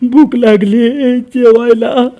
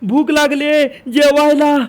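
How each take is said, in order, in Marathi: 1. आवाज खर्जात आहे. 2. आवाज तार सप्तकात आहे. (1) "हे झालं खर्जात" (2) "हे झालं तार सप्तक"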